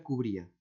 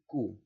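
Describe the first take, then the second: First: Said in the usual way. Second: "Cu-bri-a" with long pauses between syllables; lower-pitched, detached syllables in "Cu-bri-a". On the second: Shown as a demonstration. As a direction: isolate each syllable of "Cu-bri-a". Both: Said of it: "Cómo lo silabeo".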